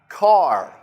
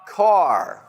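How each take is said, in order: First: The final R is strong and clearly heard. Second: The same.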